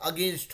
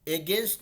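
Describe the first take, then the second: First: The first vowel is a short 'uh' sound. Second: The first vowel is a clear 'eh' sound. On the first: The speaker calls it right. "अगेंस्ट होगा, तो हमेशा pronounce करेंगे इसको अगेंस्ट" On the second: The speaker calls it wrong. "एगेंस्ट नहीं होके"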